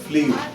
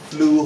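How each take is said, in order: First: A y glide comes before the oo. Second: The vowel is a plain oo sound. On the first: The speaker calls it wrong. "Not ফ্লিউ" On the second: The speaker calls it right. "এটা ফ্লু হবে"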